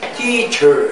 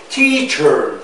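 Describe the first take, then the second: No difference in how they are said.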